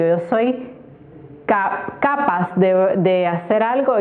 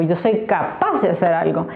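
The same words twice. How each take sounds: First: CAPAZ stressed on its first syllable, CA; wrong stress on CAPAZ. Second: CAPAZ stressed on its last syllable, PAZ; correct stress on CAPAZ. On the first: Teacher testing the wrong accent, stress on first syllable of CAPAZ. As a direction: try CAPAZ as CApaz. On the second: Teacher confirming where the accent falls, stress on last syllable of CAPAZ. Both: Shown as a demonstration. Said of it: "aquí está la".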